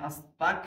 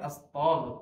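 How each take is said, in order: First: The consonant is a hard, deep k sound. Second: The consonant is a gargled, fricative gh sound. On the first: It turns the phrase into wanting to be an unbeliever. The speaker calls it wrong. "গয়নের জায়গায় কাপ উচ্চারণ করে" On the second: It asks God for forgiveness. The speaker calls it right. "গয়নের উচ্চারণ করবেন"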